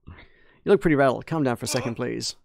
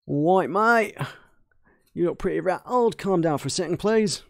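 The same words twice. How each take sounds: First: Said in the usual way. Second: Put-on Cockney, pitched higher; Cockney accent. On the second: Shown as a demonstration. Mechanic calming a rattled visitor, Cockney accent. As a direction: lift each phrase in broad Cockney. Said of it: "my Australian turns into kind of Cockney".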